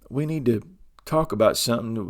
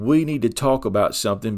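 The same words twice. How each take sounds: First: It is said in a calm, gentle tone. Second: It is said in a harsh, defensive tone. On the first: The speaker is inviting the other person to talk. The speaker calls it right. "now the tone is better" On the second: The speaker is confronting and blaming the other person. The speaker calls it wrong. "with a defensive tone where you're coming at them"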